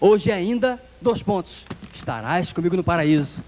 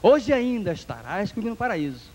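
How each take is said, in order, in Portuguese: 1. Há uma pausa depois de 'hoje ainda'. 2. Não há pausa depois de 'hoje ainda'. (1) "É aquela vírgula que uma seita coloca" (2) "E nós dizemos"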